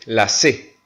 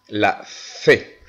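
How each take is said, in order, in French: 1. La lettre se prononce avec un accent latino-américain. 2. La lettre se prononce avec un accent espagnol. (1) "en Amérique latine, nous disons la C" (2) "Mais en Espagne, ils disent la C"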